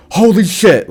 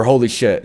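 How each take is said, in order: First: High startled exclamation; shocked. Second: Said in the usual way. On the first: Retold or imitated. Doctor seeing the injured arm, high shocked gasp. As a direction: react like you just saw a wreck. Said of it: "she's like". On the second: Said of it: "their exact words were".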